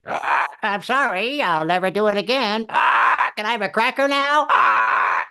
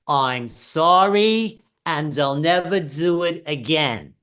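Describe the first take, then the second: First: High squawking parrot repeating back. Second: Very slow, high and drawn out, each word spelled out; dictated apology. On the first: Husband repeating wife's apology, as a squawking parrot. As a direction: squawk it like a parrot begging a cracker. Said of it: "I felt like a freaking parrot". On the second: Wife dictating the exact apology to husband, slow and exaggerated. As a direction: lay out the words for him to copy. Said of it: "told me exactly how she wanted me to say it". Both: Retold or imitated.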